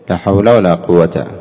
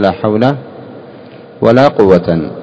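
First: The last word ends with a short 'a'. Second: The last word ends with 'an'. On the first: "الفتح الوجه الأول، كيف تقول" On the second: "والنصب، كيف تقول"

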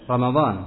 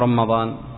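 First: The m sound is short and single. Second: The m sound is held long and doubled. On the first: The speaker calls it right. "بتخفيف الميم" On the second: The speaker calls it wrong. "أنت تقول رمضان أو رمضان؟"

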